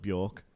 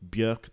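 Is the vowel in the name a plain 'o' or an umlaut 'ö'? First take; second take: plain o; umlaut. First: The vowel is a plain 'o' sound. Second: The vowel is a rounded umlaut 'ö' sound. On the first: The speaker calls it wrong. "Absolutely not [name]" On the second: The speaker calls it right. "there's the umlaut, it's Björk"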